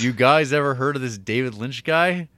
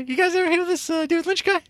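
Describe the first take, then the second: First: It is read in a plain, normal voice. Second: It is said in a put-on impression voice.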